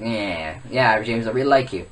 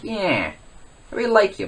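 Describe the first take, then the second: First: Lightly voiced low impression; half-hearted impression, pitched down; Eric. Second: Higher-pitched put-on voice; lightly voiced impression, pitched up; Eric. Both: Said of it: "do my best impression of Eric".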